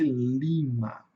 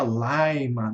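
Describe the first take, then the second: First: "lima" with a plain "ee" vowel; "lima" with I as I, not "eye"; short I. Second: "laima" with a long English I; slow "laima" with an "eye" vowel. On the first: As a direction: say "lima" as LEE-ma. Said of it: "o I curto ele tem som de I mesmo". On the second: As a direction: say "laima" as LIE-ma. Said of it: "que o I tem som de ai". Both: Shown as a demonstration.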